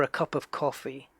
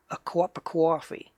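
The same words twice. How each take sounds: First: Said in the usual way. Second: Cup of coffee as "cwop a cwoffee", Boston or New York; Boston-style accent. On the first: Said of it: "is Boston when they say". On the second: Shown as a demonstration. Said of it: "is like a W in there".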